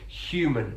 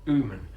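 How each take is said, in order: First: The word begins with a clear h sound. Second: The word begins without any h sound. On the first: "in R P it is used" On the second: "as it might be in other British English accents"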